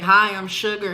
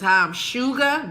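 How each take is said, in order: First: The name sounds like the ordinary word sugar. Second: The name is said as two syllables, Shu-Ga. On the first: The speaker calls it wrong. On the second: The speaker calls it right.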